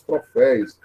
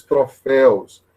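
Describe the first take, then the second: First: Troféus mispronounced as "troféis"; wrong pronunciation. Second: Troféus with a clear -éus ending; correct pronunciation. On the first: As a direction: end troféus in -éis instead of -éus. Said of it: "dá uma dor no coração". (troféus pronunciado errado, como "troféis") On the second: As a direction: say troféus ending in éu plus s, not -éis. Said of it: "Então, são os troféus". (troféus pronunciado com final "-éus") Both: Shown as a demonstration.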